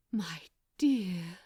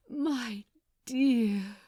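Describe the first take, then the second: First: Breathed. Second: Aching. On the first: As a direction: breathe the words out, full of longing. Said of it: "breathed Aziraphale". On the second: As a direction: let dear swell with longing. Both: Acted.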